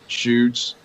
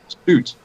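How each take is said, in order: First: The name begins with sh, rhyming boots. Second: The name rhymes with boots. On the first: The speaker calls it wrong. "slaughtered my both my names" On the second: The speaker calls it right. "like boots, like roots"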